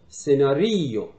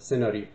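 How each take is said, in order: First: The stress is on the penultimate syllable. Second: The stress is on the first syllable. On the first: This is how an Italian speaker says it. "یه ایتالیان فشارش روی ما قبل آخره" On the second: This is how a Persian speaker says it. "فارسی زبان یا زبان فارسی فشارش روی بخش اول کلمه است"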